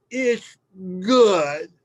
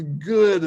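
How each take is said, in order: First: Higher, louder slurred child imitation; pouty mouth full. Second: Higher, louder "Good" with a falling end; quoted child, repeated. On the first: Little girl insisting to Dad through lemon, pouty. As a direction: force it out round a mouthful of lemon. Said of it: "mouthful of lemon, mind you, she looks at me all pouty faced". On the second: Retold or imitated. Father repeating his daughter's word, lightly imitating. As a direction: echo the child's word for the listener. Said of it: "And she says".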